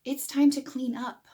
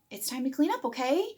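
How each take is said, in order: First: "It's time to clean up" with a falling end; firm statement. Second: Rising tag okay at the end; questioning okay. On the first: Parent stating the plan firmly to the child. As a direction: state it, no question in it. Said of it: "what you meant was". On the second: Parent turning an order into a question with "okay". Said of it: "How many of you have said". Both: Shown as a demonstration.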